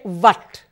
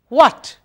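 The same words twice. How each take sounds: First: The word starts with a V-like sound. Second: The word starts with a blown W sound. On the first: The speaker calls it wrong. "Don't say what. It's not a vana" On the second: The speaker calls it right. "W H makes wh, as if you're going to blow the whistle"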